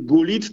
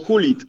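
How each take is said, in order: First: The name begins with a hard G sound. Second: The name begins with an H sound. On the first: "Nie Gulit" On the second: "Że Holendrzy by tak wymawiali"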